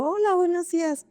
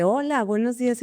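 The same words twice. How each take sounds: First: Much higher, bright sing-song greeting; cheerful greeting. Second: Said in the usual way. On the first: Retold or imitated. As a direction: greet him like you won the lottery. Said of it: "Y yo". (saludo alegre y mucho más agudo) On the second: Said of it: "el de seguridad voltea y me dice".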